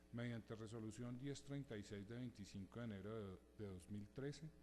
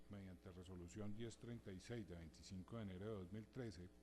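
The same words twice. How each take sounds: The two takes are said the same way.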